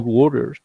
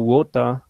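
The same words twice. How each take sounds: First: It is said in an American accent. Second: It is said in a non-American accent. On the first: "in American they say water" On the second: "I always pronounce"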